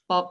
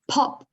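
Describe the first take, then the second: First: The first p has no puff of air. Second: The first p has a strong puff of air. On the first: The speaker calls it wrong. "They were saying pop" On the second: The speaker calls it right. "it's got to be pop"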